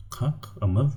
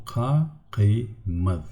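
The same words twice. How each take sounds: First: "Kak, amad" split after the k, with a questioning rise; wrong split. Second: "ka, ki, mad" broken into three syllables, the k starting the second; split into syllables. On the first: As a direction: say "Kak" then "amad" as two chunks, doubtfully. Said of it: "this is not correct". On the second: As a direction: sound out "ka" "ki" "mad" as separate beats. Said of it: "consonant will go to the next, uh, syllable". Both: Shown as a demonstration.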